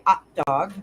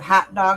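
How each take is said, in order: First: The h at the start is dropped. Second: The h at the start is pronounced. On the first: "So Newfoundland doesn't pronounce H's" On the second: "instead of hot dog"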